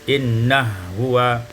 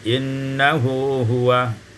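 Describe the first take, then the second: First: The two h sounds merge into one. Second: The two h sounds are kept apart.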